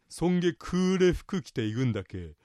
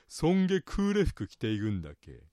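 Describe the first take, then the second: First: クーレ carries the pitch accent of 'dark'. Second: クーレ carries the pitch accent of 'black'. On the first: The clothes are dark. "という言い方に発音にするとそんな暗い" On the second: "そんなに黒い服を着ていくんですか"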